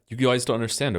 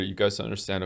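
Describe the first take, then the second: First: It is read in a put-on YouTuber voice. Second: It is read in a plain, ordinary voice.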